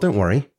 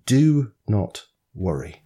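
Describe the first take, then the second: First: It is said as gentle, casual advice. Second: It is said as a firm command.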